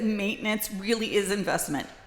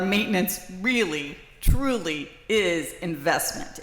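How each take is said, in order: First: It is said at normal volume. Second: It is said more loudly.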